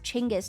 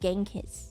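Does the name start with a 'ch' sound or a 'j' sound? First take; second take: ch; j. First: The name starts with a 'ch' sound. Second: The name starts with a 'j' sound. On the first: This is the native Mongolian form. The speaker calls it right. "in actual Mongolian, it's pronounced Chinggis" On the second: This is the anglicized form. The speaker calls it wrong. "not Genghis"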